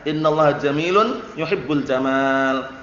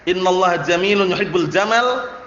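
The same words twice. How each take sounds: First: The last vowel of the final word is long. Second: The last vowel of the final word is short. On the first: God loves beauty. The speaker calls it right. "Jadi panjang" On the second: God loves camels. The speaker calls it wrong. "Kalau antum baca pendek"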